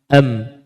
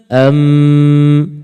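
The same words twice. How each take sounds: First: The m is nasalized only briefly and lightly. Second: The m carries a full, long nasal hum. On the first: "Dia dengung, tapi dia tak sempurna" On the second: "Kalau sempurna"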